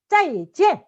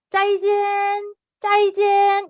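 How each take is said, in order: First: 짜이젠 with both syllables falling sharply, the first struck hard; falling fourth tone. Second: 짜이젠 drawn out high and level, without a fall; mistaken level intonation. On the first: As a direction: punch 짜이 down, then let 젠 fall. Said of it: "앞을 좀 세게 하고 사성". (짜이를 세게 내리꽂는 사성) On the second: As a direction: mimic the mistake, holding 짜이젠 up like a Korean farewell. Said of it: "이건 틀린 거예요". (짜이젠을 높고 평평하게 길게 끄는 틀린 발음) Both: Shown as a demonstration.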